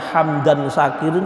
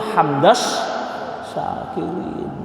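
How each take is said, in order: First: The first word ends in a clear n sound. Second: The first word ends in an s sound. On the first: The speaker calls it wrong. "hamdan syakirin itu salah" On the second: The speaker calls it right. "Yang betul hamdas syakirin"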